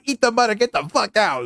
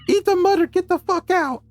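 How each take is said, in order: First: It is said in a natural speaking voice. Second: It is said in a put-on pixie voice. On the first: The characters have dropped their act. The speaker calls it right. "they actually drop their bad pixie impressions" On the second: The characters are still keeping up their act. The speaker calls it wrong. "I was doing the voice so much"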